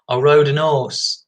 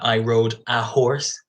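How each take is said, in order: First: The h at the start of horse is dropped. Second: The h at the start of horse is pronounced. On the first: The speaker calls it wrong. "some of the pronunciation they don't pronounce H's" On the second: The speaker calls it right. "instead of saying"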